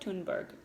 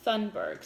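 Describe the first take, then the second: First: The name is said with a Swedish-style pronunciation. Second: The name is said with an English-style pronunciation. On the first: The speaker calls it right. "but I believe it's Greta Thunberg" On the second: The speaker calls it wrong. "It's spelled like Thunberg, so some people say it that way"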